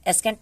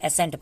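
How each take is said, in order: First: The word is said with a k sound. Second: The word is said without a k sound. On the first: The speaker calls it wrong. "एस्केंट एस्केंट नहीं पढ़ते" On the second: The speaker calls it right. "एसेंट पढ़ते हैं। यहाँ पे सी silent है"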